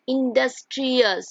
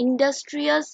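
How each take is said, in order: First: "industrious" slowly, in separate beats; syllable by syllable. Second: Said in the usual way. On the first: Shown as a demonstration. Teacher showing "industrious" has several syllables, slow beat-by-beat delivery. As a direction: sound out in-dus-tri-ous slowly for "industrious". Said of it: "more than one syllable".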